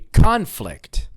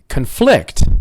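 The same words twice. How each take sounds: First: The stress is on the first syllable. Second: The stress is on the second syllable. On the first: It is a noun meaning a fight. "that's the noun" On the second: It is a verb meaning to disagree. "Conflict means to disagree"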